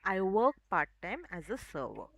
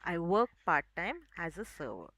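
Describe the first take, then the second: The two takes are said the same way.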